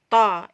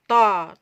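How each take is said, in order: First: The sound is thick, made at the back. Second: The sound is thick, made at the back.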